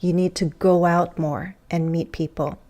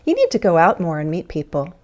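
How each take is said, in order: First: It is spoken slowly and carefully. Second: It is spoken quickly with linked words.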